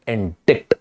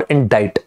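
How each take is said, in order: First: "indict" said as in-DIKT, c sounded; variant pronunciation. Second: "indict" said as in-DITE, silent c; correct pronunciation. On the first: Teacher offering students either option, "indict" as in-dikt. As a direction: say "indict" with an audible k before the t. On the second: Teacher offering students either option, "indict" as in-dite. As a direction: rhyme the end of "indict" with kite. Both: Shown as a demonstration. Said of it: "the pronunciation is indict".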